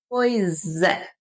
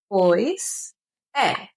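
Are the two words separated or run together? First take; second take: run together; separated. First: The two words are run together smoothly. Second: The two words are said separately. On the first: "nós juntamos a palavra pois com a letra E" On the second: "A gente escreve pois é"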